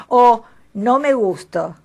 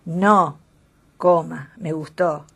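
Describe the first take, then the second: First: "no me gusto" said slowly as one unbroken phrase, a bit louder; no pause, run together. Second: "no," set apart, a clear pause before "me gustó"; pause after no. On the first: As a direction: glide straight through "no me gusto" with no comma. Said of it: "sin coma". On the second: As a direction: break after "no", then "me gustó". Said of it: "con una coma después del no". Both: Shown as a demonstration.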